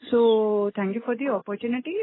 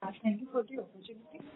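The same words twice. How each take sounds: First: Said in the usual way. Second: Much softer, far from the mic; barely audible. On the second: Real, not acted. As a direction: speak too faintly to be heard. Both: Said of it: "Your voice is very low".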